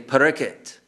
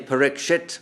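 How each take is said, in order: First: The middle consonant is a plain k sound. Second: The middle consonant is a clear ksh sound. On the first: This is how Bengali speakers say it. "they say Parikit" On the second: This is the standard pronunciation that Bengali speakers avoid. "They don't say Parikshit Maharaj"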